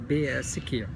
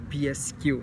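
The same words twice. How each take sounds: First: The letters are named with Portuguese letter sounds. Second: The letters are named with English letter sounds.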